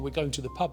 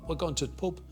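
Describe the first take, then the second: First: It is said in a standard textbook English accent. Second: It is said in a South Yorkshire accent. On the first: This is how the phrase was learned from books. "instead of saying" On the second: This is how the phrase was picked up from locals. "I had to just follow them"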